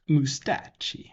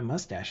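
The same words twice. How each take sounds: First: The word has a Yiddish-style pronunciation. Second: The word has a plain English pronunciation.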